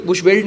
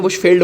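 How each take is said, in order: First: बुशवेल्ड said with a v sound and ending in -veld; wrong name, shown. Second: बुशफील्ड said with an f sound and ending in -field; correct name, shown. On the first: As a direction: say बुशवेल्ड as the name we do not use. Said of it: "इसे हम basically बुशवेल्ड नहीं बोलते हैं". (बुशवेल्ड गलत नाम की तरह बोलें) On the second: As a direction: give बुशफील्ड as the right name, with a falling tune. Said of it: "बुशफील्ड बोलते हैं". (बुशफील्ड सही नाम की तरह, गिरते सुर में) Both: Shown as a demonstration.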